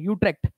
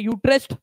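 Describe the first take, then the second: First: The name ends with an 'ekt' sound. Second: The name ends with an 'est' sound. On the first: The speaker calls it right. "लेकिन actual में इसका pronunciation यूट्रेक्ट है" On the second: The speaker calls it wrong. "ये यूट्रेस्ट पढ़ते कुछ लोग"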